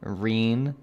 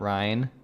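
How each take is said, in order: First: The name is said with an 'ee' vowel. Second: The name is said with an 'eye' vowel. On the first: The speaker calls it right. "her name is said like Reen" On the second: The speaker calls it wrong. "not Ryan"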